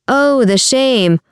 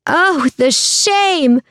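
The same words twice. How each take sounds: First: Higher-pitched, drawn-out lament; theatrical moan. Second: Very high, long drawn-out wail; crowd voice yelling. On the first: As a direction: moan slowly in mock disgrace. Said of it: "Giovanni moaned". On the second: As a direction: wail from the crowd without real volume. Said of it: "another voice yelled from somewhere within". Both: A narrator's reading.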